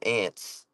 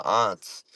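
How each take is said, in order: First: "aunts" said like ants; short A of cat in "aunts"; bug pronunciation. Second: "aunts" with a broad AH; respectful pronunciation. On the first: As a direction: say "aunts" like the insects. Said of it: "like a bug". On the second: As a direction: say "aunts" as ahnts. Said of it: "Do you pronounce it aunt". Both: Shown as a demonstration.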